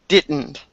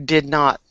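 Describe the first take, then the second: First: The two words are joined into one contracted word. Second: The two words are said separately and in full. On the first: The speaker calls it wrong. "You gave me the contraction for did not as didn't" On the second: The speaker calls it right. "but it was actually did not"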